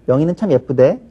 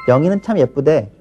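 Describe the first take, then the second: Both takes have the same delivery.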